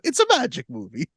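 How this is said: It is said in a Super Mario voice.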